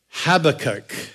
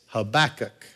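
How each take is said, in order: First: The name is said without a Southern accent. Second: The name is said with a Southern accent.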